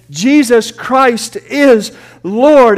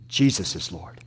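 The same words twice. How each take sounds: First: Loud, very slow proclamation; proclaimed. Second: Much lower and softer, reverent; hushed. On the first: Preacher crowning the list of names, loud and drawn out. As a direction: stretch every word out, louder. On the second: Glory thieves giving glory, softly and low. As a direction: drop it down to a hush. Quiet after the climax. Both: Acted.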